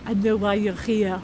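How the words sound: It is said in a put-on French accent.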